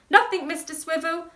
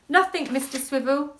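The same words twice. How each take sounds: First: It is said in a very high voice. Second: It is said in a very low voice.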